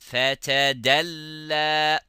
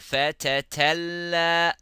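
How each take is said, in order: First: A t sound is followed by a d sound. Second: Both middle consonants are t sounds. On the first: The speaker calls it right. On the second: The speaker calls it wrong.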